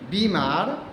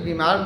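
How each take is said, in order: First: The first vowel is long and drawn out. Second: The first vowel is short and quick. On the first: The speaker calls it right. "ब में बड़ी की मात्रा होती है" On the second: The speaker calls it wrong. "अक्सर लोग गलत उच्चारण कर दिया करते हैं"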